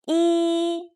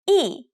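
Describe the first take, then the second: First: The pitch stays high and level. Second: The pitch falls sharply from high to low.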